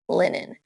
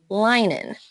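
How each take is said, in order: First: The stressed vowel is short. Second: The stressed vowel is long. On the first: The speaker calls it right. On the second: The speaker calls it wrong.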